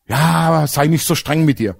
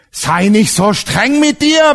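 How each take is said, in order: First: Said in the usual way. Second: "Sei nicht so streng mit dir" higher, louder and drawn out slowly; slow emphatic repeat. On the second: Acted. Preacher driving the friend's advice home to the congregation, slow and emphatic.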